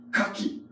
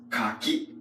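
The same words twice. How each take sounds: First: Kaki with pitch falling from the first syllable, as for oyster. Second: Kaki with pitch rising toward the end, as for persimmon. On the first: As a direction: say Kaki going down, like diving into the sea. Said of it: "the intonation goes downward". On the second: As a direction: say Kaki going up, like fruit on a tree. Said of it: "So you go up". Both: Shown as a demonstration.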